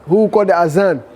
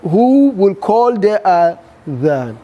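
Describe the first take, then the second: First: The middle consonant is a buzzing 'z' sound. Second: The middle consonant is a soft 'th' sound. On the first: This is the local way of saying it. The speaker calls it wrong. "this is our language, but it's not Arabic" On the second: This is the proper Arabic way of saying it. The speaker calls it right.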